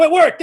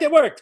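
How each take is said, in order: First: Excited. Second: Said in the usual way. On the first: Real, not acted.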